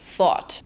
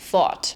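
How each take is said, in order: First: It has a hard German R sound. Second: It has a hard German R sound.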